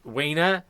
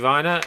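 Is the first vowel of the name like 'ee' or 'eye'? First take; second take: ee; eye. First: The first vowel sounds like 'ee'. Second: The first vowel sounds like 'eye'. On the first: The speaker calls it wrong. "and not Wiener" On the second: The speaker calls it right. "you should favour the, the second vowel, and it should actually be, be pronounced Weiner"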